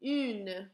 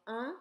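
First: "une" with a rounded U and sounded N. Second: "un" as a nasal vowel, no N sound. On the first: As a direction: say "une" firmly with the N. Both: Shown as a demonstration. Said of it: "change in the article".

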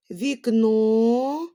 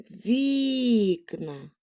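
First: Вікно with a long, loud stressed final НО; stress on last syllable. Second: Вікна with a long stressed first syllable ВІК. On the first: Teacher showing children shifting stress, вікно stressed on НО. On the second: Teacher showing children shifting stress, вікна stressed on ВІК. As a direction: stretch the І in вікна, let the ending fall. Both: Shown as a demonstration. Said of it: "щоб наголос у слові змінював".

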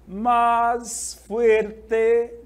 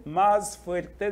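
First: Loud, drawn-out MÁS FUERTE with each word held; slow emphasis. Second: Said in the usual way. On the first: Shown as a demonstration. Teacher reading the key phrase to students, slow emphasis. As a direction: stretch out MÁS FUERTE, louder and higher.

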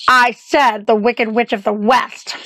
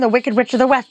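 First: Slow, deliberately spaced-out repetition; emphatic repeat. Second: Said in the usual way. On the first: Acted. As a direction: say it slowly so they catch every word. Repeats for hard-of-hearing listener.

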